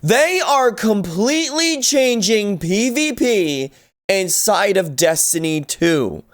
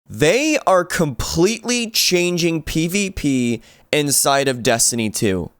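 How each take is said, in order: First: It is said with strong, forceful emphasis. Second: It is said in a plain, calm way.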